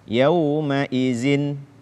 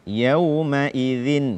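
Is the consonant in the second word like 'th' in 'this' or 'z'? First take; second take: z; th. First: The consonant is a plain 'z' sound. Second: The consonant is a voiced 'th' sound. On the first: The speaker calls it wrong. "menggantinya dengan zai" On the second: The speaker calls it right. "membaca huruf dzal dengan tepat"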